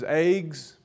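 The vowel is long, like 'aig'. "becomes eggs"

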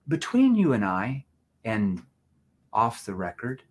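It is said in a low, confiding tone. The speaker calls it right. "So you lean in and hear my tonality. You're going to say it like this"

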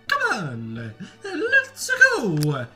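It is said in a Mario impression.

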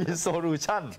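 The word is said in a Thai style. The speaker calls it wrong. "แบบไทยๆ"

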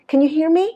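The voice rises at the end. The speaker calls it right. "nó sẽ là ... trong trường hợp này nó sẽ là đi lên"

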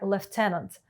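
It is said with a British English pronunciation. "В британській англійській це"

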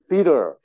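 The middle t is softened into a flap. "미국식 발음은 다 T 발음을 디귿이나 리을로 한다고 했어요"

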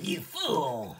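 It is said in a Frieza impression voice.

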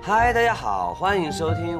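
It is spoken in a soft Taiwanese-style Mandarin accent. "你要不要试试港台腔啊"

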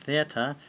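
It begins with a th sound. "to pronounce the word in English theatre"

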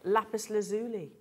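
It is said in an American-style pronunciation.

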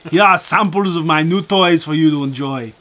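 It is read in an imitated Austrian accent.

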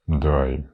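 The word is said in an angry tone. The speaker is annoyed. "ти можеш сказати злобно «дай»"

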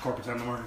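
The phrase is spoken in a loud voice. The speaker calls it right. "Say it loud"

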